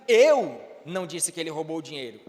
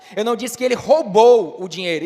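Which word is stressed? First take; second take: eu; roubou. First: The stress falls on the word eu. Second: The stress falls on the word roubou. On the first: Someone else said it. "então quem foi que disse se não foi você?" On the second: He did something else with the money. "então o que foi que ele fez com o dinheiro?"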